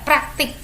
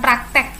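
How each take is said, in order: First: The last syllable has an i vowel. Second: The last syllable has an e vowel. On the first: The speaker calls it right. "tapi praktik pakai I" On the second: The speaker calls it wrong. "bukan praktek E"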